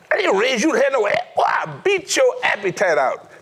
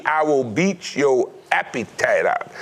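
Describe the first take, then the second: First: High, fast threat of a strict father; a strict father warning his son; stern dad. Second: "I will beat your appetite out" slow and even, each word set down deliberately; dad's phrase, spelled out. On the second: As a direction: quote the catchphrase slowly, word by word. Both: Retold or imitated. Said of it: "That was his phrase".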